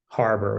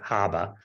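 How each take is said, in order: First: It is said in a general American accent. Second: It is said in a local Boston accent.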